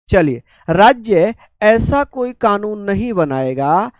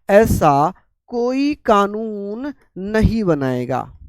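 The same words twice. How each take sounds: First: Said in the usual way. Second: कोई lifted and leaned on, words drawn out slowly; slow down and hit कोई; stress on कोई. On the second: Shown as a demonstration. Teacher repeating the rule for students, slow with stress on कोई. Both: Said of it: "कोई कानून, any law".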